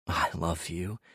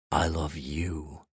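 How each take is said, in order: First: Tender. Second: Slow tender whisper-soft repeat. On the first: Tender confession after sex. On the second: Repeated, softer and slower. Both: Acted.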